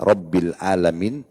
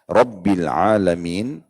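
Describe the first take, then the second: First: Alamin begins with a plain glottal stop. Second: Alamin begins with a deep throaty ain sound. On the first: It means Lord of the sick. The speaker calls it wrong. "kalau Bapak Ibu banti menjadi Hamzah" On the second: It means Lord of the worlds. The speaker calls it right. "pakai ain"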